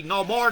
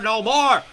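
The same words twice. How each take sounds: First: Loud rising cry for more; a bird's call, much louder and higher; voicing the birds. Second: A full shout, even higher, falling on more; the birds screaming their protest; voicing the birds. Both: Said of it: "These beautiful birds say".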